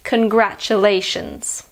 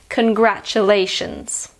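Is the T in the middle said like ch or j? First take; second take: ch; ch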